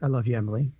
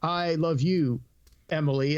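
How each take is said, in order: First: The line is delivered in a relaxed, natural way. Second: The line is delivered in a stiff, stilted way. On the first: The speaker calls it right. "it's more natural" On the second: The speaker calls it wrong. "no, it's not like that"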